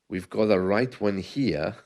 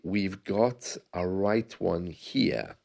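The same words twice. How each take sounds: First: The phrase is said at normal speed. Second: The phrase is said slowly.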